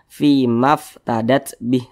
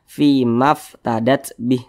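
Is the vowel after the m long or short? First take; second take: short; short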